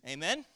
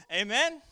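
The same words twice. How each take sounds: First: Said in the usual way. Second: Louder call for response. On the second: Real, not acted. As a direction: call out Amen? much louder, rising, to the congregation. Pastor calls again, louder.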